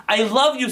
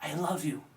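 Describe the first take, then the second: First: High, loud I love you; God's love proclaimed aloud; loud declaration. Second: Soft, gentle I love you; God's love said softly and tenderly. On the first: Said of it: "Hashem told him". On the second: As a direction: say it softly, as to a child. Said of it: "That's what Hashem says to us". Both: Shown as a demonstration.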